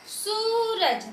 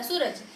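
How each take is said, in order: First: सूरज with the oo stretched long and high; overlong vowel. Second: Said in the usual way. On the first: Shown as a demonstration. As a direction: draw out the ऊ in सूरज. (सूरज का ऊ लंबा खींचकर, ऊंचे सुर में) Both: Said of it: "मैंने ऐसा नहीं बोला".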